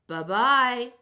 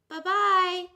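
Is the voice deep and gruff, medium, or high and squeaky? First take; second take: deep gruff; medium. First: It is said in a deep gruff voice. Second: It is said in a medium voice.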